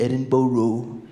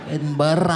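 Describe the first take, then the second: First: The ending is said fully like 'borough'. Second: The ending is said short and reduced. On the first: The speaker is imitating an American tourist. The speaker calls it wrong. "met an American guy who was like" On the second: This is the local way of saying it. The speaker calls it right.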